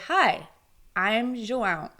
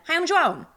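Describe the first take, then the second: First: It is said slowly and clearly. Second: It is said fast and hurried. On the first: The speaker calls it right. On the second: The speaker calls it wrong.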